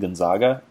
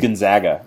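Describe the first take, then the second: First: The middle vowel is a broad 'ah' sound. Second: The middle vowel is a flat 'a' sound. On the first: It follows the Italian name. "the Italian guy named Gonzaga, and continue calling them Gonzaga" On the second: It follows the local way of saying it. "That's why they're the Zags, not the Zogs"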